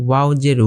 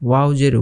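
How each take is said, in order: No difference in how they are said.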